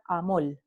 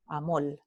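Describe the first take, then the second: First: "amol" con l final en lugar de r; Puerto Rican amol. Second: "amol" más grave y suave, con l final; Puerto Rican amol. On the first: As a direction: decir "amol" cambiando la r final por l. ("amol" a la puertorriqueña) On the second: ("amol" repetido más grave, con l) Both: Shown as a demonstration. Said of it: "se pronuncia amol".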